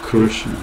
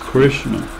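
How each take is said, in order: First: It is said with an Odia accent. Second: It is said with an American English accent. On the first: "em Orissa" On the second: "Nos Estados Unidos"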